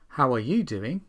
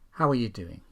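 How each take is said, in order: First: The small words are said in full. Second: The small words are weak and reduced.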